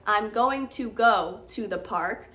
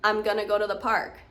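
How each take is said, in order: First: Going to is said as two separate full words. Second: Going to is blended together into gonna. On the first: The speaker calls it wrong. "I wouldn't say" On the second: The speaker calls it right. "See how it blends very differently? Going to blends into gonna"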